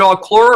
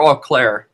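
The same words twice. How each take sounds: First: "Auclair" ending like "lore"; second syllable of "Auclair" said "klor"; alternative pronunciation. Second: "Auclair" ending like "clare"; second syllable of "Auclair" said "klair"; confirmed pronunciation. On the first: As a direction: say "Auclair" as aw-KLOR, rhyming with "door". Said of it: "Is it Auclair or Auclair?". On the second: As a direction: say "Auclair" as aw-KLAIR, rhyming with "air". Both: Shown as a demonstration.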